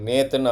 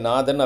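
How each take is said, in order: First: The first vowel is a mid 'ay' sound. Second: The first vowel is a long open 'aa'. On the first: This is how English speakers say the name. "நேத்தன் அவங்க சொல்கிறாங்க" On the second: This is how Tamil speakers say the name. "நாதன் அப்படின்னு சொல்லியிருக்கோம்"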